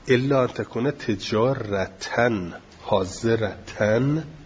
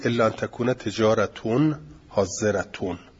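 First: The nouns end with the sound -an. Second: The nouns end with the sound -un.

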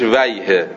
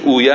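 First: The suffix is said as 'wayh', ending in a consonant. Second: The suffix is said as 'uye', ending in a vowel. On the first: This is the Arabic form of the suffix. "تلفظ عربیش ویه" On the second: This is the Persian form of the suffix. "چیز فارسیش اویه است"

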